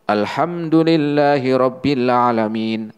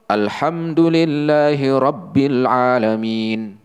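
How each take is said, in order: First: "Rabbil" said with a single short b, the shadda left out; shadda skipped. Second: "Alhamdulillahi Rabbil Alamin" recited slowly, with the doubled b in "Rabbil" held; careful recitation that stresses the shadda of "Rabbil"; correct with shadda. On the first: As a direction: demo of the mistake in "Rabbil", the doubled b not held. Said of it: "ya langsung". (contoh salah, tasydid "Rabbil" tidak dibaca) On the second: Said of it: "Ya, contoh". (bacaan benar, tasydid "Rabbil" ditekan) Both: Shown as a demonstration.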